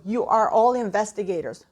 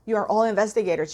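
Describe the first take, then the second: First: Said in the usual way. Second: Fast, rushed restatement; hurried, urgent repeat; quick repeat. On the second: Shown as a demonstration. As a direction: rattle it off quickly.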